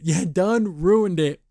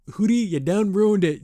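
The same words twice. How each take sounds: First: Drawn out through a laugh, slower; slow laughing repeat. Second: Said in the usual way. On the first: Real, not acted. Teasing Hootie for ruining the date, slow and laughing.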